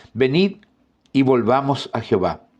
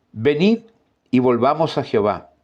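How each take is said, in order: No difference in how they are said.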